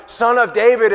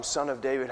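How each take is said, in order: First: Loud, accusing cry, higher; bitter demand. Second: Soft, low, pleading call; humble plea. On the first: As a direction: fling it at him as a challenge. Blind men's bitter accusation. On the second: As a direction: beg gently, heads bowed. Humble cry for mercy. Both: Acted.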